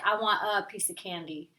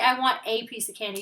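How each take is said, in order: First: The word a is reduced to a quick uh. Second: The word a is said fully as ay. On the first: The speaker calls it right. "You usually say uh" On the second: The speaker calls it wrong. "You don't say"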